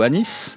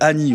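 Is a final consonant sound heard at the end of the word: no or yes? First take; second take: yes; no. First: The word ends with a final s sound. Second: The word ends without a final s sound. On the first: "avec ou sans consonne finale" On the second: "avec ou sans consonne finale"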